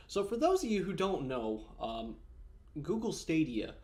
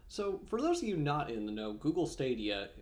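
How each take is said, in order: First: Said in the usual way. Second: Talking with almonds in mouth; mouth full. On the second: Real, not acted. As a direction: speak around a mouthful of nuts. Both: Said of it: "sorry, I had an almond in my mouth".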